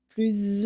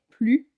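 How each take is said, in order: First: The final s is sounded as a z. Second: The final s is not sounded at all. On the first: A word starting with a vowel follows. "on entend plus intelligent. On fait la liaison" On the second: It is part of a negation. "donc le S est muet"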